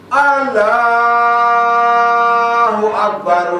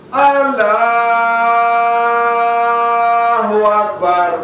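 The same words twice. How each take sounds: The two takes are said the same way.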